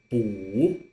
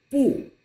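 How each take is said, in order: First: 补 drawn out with a rising tone; slow rising citation of 补; 不 in second tone. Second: Louder, falling citation of 不; 不 in fourth tone. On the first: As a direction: lift 补 slowly upward. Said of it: "the second tone". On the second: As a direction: drop hard on 不. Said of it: "the fourth tone". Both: Shown as a demonstration.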